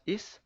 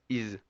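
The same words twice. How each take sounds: First: Is said with a hissed s; the wrong is, no buzz; wrong pronunciation. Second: Is said with a buzzing z; the right is, with a clear z; right pronunciation. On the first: Teacher showing the wrong sound to avoid. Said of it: "No es". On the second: Teacher giving the correct buzz after the wrong one. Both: Shown as a demonstration.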